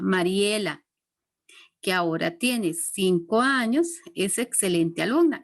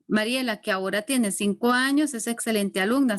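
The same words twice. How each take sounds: First: It is said with pauses around the phrase. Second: It is said without pauses around the phrase.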